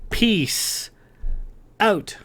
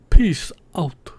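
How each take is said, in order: First: It is said in the speaker's natural voice. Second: It is said imitating Lady Christiana's voice.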